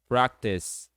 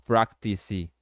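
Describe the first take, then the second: First: The word ends on an s sound, no vowel. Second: The word ends with an extra vowel sound. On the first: The speaker calls it right. "Vai ficar só com som de C no final" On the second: The speaker calls it wrong. "Não"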